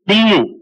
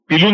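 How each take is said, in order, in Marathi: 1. l हा आवाज दीर्घ आणि दुहेरी आहे. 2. l हा आवाज छोटा आणि एकेरी आहे. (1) "ल ला ल आहे" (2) "पिल्लू नाहीये"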